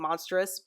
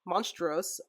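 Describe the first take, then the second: First: It is pronounced like the English word monstrous. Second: It is pronounced the Spanish way, monstruos. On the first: The speaker calls it wrong. "as some people keep saying monstrous" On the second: The speaker calls it right. "but it's monstruos"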